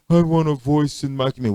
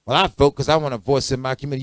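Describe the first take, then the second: First: Quoting a voter. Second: Quoting a woman. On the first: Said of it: "People say". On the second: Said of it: "A woman told me that". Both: Retold or imitated.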